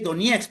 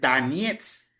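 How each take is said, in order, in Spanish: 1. La primera vocal suena como una 'o' clara. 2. La primera vocal suena como una 'a'. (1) "todo el mundo dice Donetsk porque uno lee Donetsk" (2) "la O suena como A, entonces realmente la pronunciación correcta es Donetsk"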